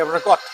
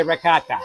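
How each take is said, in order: First: "ricotta" in his New England way; his own New England ricotta. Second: "ricotta" as the other way, the one he rejects; the ricotta he doesn't use. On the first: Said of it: "we say ricotta". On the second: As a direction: say "ricotta" the way he says New Englanders don't, a flat reh-KAH-tah. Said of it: "We don't say ricotta". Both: Shown as a demonstration.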